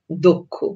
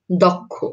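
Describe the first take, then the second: First: দক্ষ with an o first vowel, dokkho; দক্ষ said the spoken way; spoken pronunciation. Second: দক্ষ with an open ɔ first vowel; দক্ষ read as spelled, dɔkkho; read as written. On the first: (দক্ষ ও-কারের মতো উচ্চারণে) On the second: (দক্ষ লিখিত রূপে) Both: Shown as a demonstration. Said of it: "যদি ক্ষীয় থাকে তাহলে".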